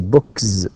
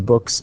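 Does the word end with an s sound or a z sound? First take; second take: z sound; s sound. First: The word ends with a voiced z sound. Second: The word ends with a voiceless s sound. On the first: The speaker calls it wrong. "if you pronounce the word book for example um, with the with the word with with z it will be very difficult you can't say" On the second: The speaker calls it right. "so it has to be"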